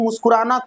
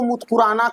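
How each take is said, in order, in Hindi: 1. यह शब्द साफ़ और सामान्य तरीके से बोला गया है। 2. यह शब्द बच्चों जैसी तुतलाहट के साथ बोला गया है।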